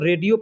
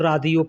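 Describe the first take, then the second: First: The first vowel sounds like 'ay'. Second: The first vowel sounds like 'aa'. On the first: This is how it is said in India. "हम लोग हिंदी इंडिया के अंदर जब पढ़ते हैं तो रेडियो पढ़ते हैं" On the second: This is how Arabic speakers say it. "अरबी लोग पढ़ते हैं तो रादियो पढ़ते हैं"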